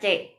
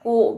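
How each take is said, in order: First: The syllable begins with a ch-like sound. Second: The syllable begins with a hard k sound. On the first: The speaker calls it right. "Tapi C, bacanya C" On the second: The speaker calls it wrong. "bukan Q biasa, bukan ku gitu ya, bukan"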